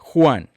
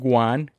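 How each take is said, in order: First: The name starts with a throaty, rasping sound. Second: The name starts with a plain w sound. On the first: The speaker calls it right. "which in Spanish is like you hacking a Louis" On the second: The speaker calls it wrong. "not Juan"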